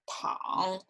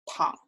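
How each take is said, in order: First: The pitch dips low, then rises again. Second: The pitch stays low throughout.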